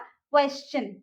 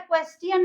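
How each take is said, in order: First: The middle consonant is a 'ch' sound. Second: The middle consonant is a plain 't' sound. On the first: The speaker calls it right. "टी का sound हो जाएगा च" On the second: The speaker calls it wrong. "उसको हम क्वेश्चन नहीं बोलते"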